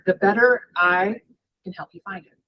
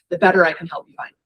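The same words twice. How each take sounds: First: Each word is carefully and crisply enunciated. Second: The words are said in a relaxed, casual way. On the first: The speaker calls it wrong. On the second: The speaker calls it right.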